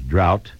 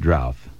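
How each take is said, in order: First: The word ends with a 't' sound. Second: The word ends with a 'th' sound. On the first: "You can spell it two different ways" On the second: "pronounce it drouth. Either one is correct"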